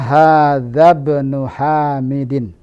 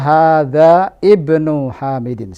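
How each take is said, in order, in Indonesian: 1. Huruf 'i' dihilangkan, sehingga hadza menyambung menjadi bnu. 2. Huruf 'i' pada 'ibnu' dibaca terpisah. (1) "Yang benar adalah" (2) "tidak boleh salah kalau kita baca hadza ibnu Hamidin. Salah"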